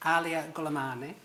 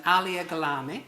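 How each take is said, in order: First: "Gulamani" in full, goo-la-MAH-nee; every syllable of "Gulamani" said carefully; corrected name. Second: "Gulami" clipped to three syllables; name slip. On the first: Host corrects himself to the audience, careful. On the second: Host fumbles the panellist's surname, stumbling. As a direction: says "Alia Gulami", dropping the "-ni" ending. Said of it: "sorry, Alia Gulamani". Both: Real, not acted.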